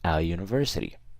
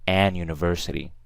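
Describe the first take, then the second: First: The article is said without an n sound. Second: The article is said with an n sound. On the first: The speaker calls it right. "I say a university" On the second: The speaker calls it wrong. "So I don't say an university"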